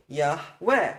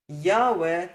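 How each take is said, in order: First: Yahweh with the stress on the last syllable, yah-WEH; emphasis at end. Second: Yahweh with the stress on the first syllable, YAH-weh; emphasis at beginning. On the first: Teacher singing-guide for the name, Yahweh stressed at the end. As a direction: lean on the second syllable of Yahweh. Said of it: "Put the emphasis at the end". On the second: Teacher showing the incorrect way, Yahweh stressed at the start. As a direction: hit the first syllable of Yahweh, let the second drop. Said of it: "Don't put the emphasis at the beginning". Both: Shown as a demonstration.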